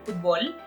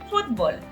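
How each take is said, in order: First: The stress is on the last syllable. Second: The stress is on the first syllable. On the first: "like there's like a, a stress in the O" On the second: "which is closer to the English word"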